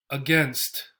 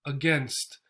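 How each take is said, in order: First: Against. con a inicial débil, schwa; schwa first syllable. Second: Against. con a inicial débil, schwa; a reducida, acento en gainst en Against; schwa first syllable. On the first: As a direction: reduce la a de Against. y marca gainst. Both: Shown as a demonstration. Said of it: "here we have the A as a syllable by itself".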